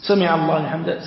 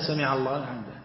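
First: The imam's call سمع الله لحمده, said out clearly; imam announcing. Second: سمع الله لحمده said much softer and lower; soft follower's echo; quiet follower. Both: Shown as a demonstration. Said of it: "قال الإمام".

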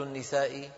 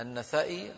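First: النسائي with a kasra on the nun, "Nisa'i"; wrong pronunciation. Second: النسائي with a fatha on the nun, "Nasa'i"; correct pronunciation. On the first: Teacher warning students not to say it, mispronounced "Nisa'i". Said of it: "لا تقول". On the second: Teacher correcting students on the name, pronounced "an-Nasa'i". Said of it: "نسبة إلى بلد اسمها نساء". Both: Shown as a demonstration.

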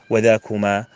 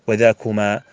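The two takes are said the same way.

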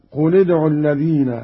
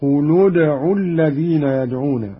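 First: قل ادعوا as qulid'u; kasra on lam. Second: قل ادعوا as qulud'u; damma on lam. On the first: Teacher quotes the verse before the variant, قل ادعوا as qulid'u. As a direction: join قل with an i on the lam. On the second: Teacher shows Qalun's reading, قل ادعوا as qulud'u. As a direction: join قل with a u on the lam. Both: Shown as a demonstration. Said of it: "بضم أولى الساكنين وهو اللام".

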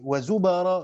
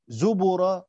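First: Slow wa-zubara, b given a fatha. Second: Slow zubura, b given a damma. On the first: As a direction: spell out the a after b in zubara. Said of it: "بفتح الباء". (زُبَرًا بفتح الباء) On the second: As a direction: spell out the u after b in zubura. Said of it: "بضم الباء". (زُبُرًا بضم الباء) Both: Shown as a demonstration.

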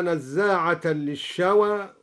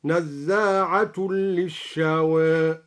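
First: Said in the usual way. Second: نزاعة ending in u, very slow recitation; nazza'atun with damma. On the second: Shown as a demonstration. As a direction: give نزاعة the nominative u ending. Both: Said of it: "برفع نزاعة خبر ثان هكذا".

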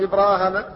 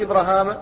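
First: "إبراهام" as Ibraahama, long raa, short ha; last alif dropped. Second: "إبراهام" as Ibrahaama, short ra, long haa; first alif dropped. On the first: Teacher listing variants, "إبراهام" with only the first alif long. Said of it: "أو يحذف الأخير فقط فيقال". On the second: Teacher listing variants, "إبراهام" with only the last alif long. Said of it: "أو يحذف الأول فقط فيقال". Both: Shown as a demonstration.

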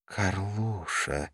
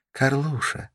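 First: Slow, soft murmur; hushed, drawn-out mutter. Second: Said in the usual way. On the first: A narrator's reading. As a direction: murmur the name slowly to yourself. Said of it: "пробормотала Карла".

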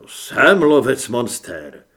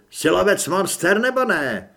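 First: Slow, low, determined answer with stress on jsem; firm resolve. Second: Higher, pushing taunt, ending on a high question; challenging taunt. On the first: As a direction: answer back with slow certainty, hitting "jsem". Hrdina odpovídá rozhodně. (pomalu a rozhodně, důraz na „jsem“) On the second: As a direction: goad him into answering. Duch vyzývá. (vyzývavý posměch) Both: Acted.

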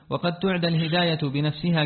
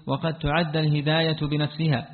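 First: تعدى read tuʿdā, without doubled dāl; mispronounced verb. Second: تعدى read tuʿaddā, with doubled dāl; corrected verb. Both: Real, not acted. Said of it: "قد تعدى".

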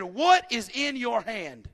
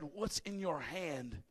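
First: Louder, slow and weighty; booming, slow divine question; voice of God. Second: Quiet, slow voice of God; hushed question. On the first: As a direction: let God's question land slowly. God's question to Moses. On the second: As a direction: drop to a near hush. God's question, quietly repeated. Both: Acted.

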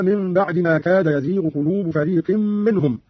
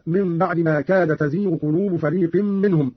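First: Said in the usual way. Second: "تزيغ" begun with t, tazighu; Qalun reading with ta. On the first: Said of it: "قرأ قالون بالتاء". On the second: Shown as a demonstration. Teacher demonstrates feminine form, "تزيغ" read tazighu. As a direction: say "تزيغ" with initial ta instead of ya. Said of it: "قرأ قالون بالتاء هكذا".

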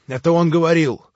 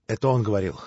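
First: Louder, higher repeat of the same words; anguished shout. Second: Said in the usual way. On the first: Acted. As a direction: burst out insisting. Repeated as an outburst. (выкрикнуть, настаивая)

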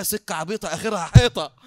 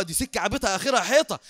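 First: Said in the usual way. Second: Laughter in the voice; amused repeat. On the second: Retold or imitated. Teller relishing the sheikh's catchphrase, laughing lightly. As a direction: repeat the catchphrase through a chuckle.

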